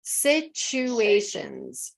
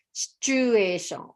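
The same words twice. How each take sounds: First: Situations very slow with full ending; careful situations. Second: Situation without the final s; wrong situation. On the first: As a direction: stretch Situations, land the ending. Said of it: "be careful about situations instead of situation". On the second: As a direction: drop the ending on situation. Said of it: "instead of situation". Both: Shown as a demonstration.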